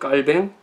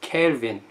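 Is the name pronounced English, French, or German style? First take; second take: French; English. First: The name is said the French way. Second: The name is said the English way. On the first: "불어식 발음은" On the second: "영어식 발음은"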